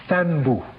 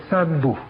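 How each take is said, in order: First: "Thanbu" with an opening th sound; Fulani pronunciation. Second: "Sanbu" with an opening s sound; Tha as Sa. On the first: Lecturer showing how the Arabic name changes in Fulani, "Thanbu" with th. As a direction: say "Thanbu", starting on th rather than s. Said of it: "Some people pronounce the Tha as a Sa". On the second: Lecturer showing how some people pronounce it, "Sanbu" with s for th. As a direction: say "Sanbu", the th turned into s. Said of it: "pronounce the Tha as a Sa". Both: Shown as a demonstration.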